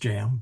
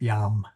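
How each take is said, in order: First: The word begins with a 'j' sound. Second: The word begins with a 'y' sound. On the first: The speaker calls it wrong. "It's not pronounced jam" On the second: The speaker calls it right. "but still pronounced yam"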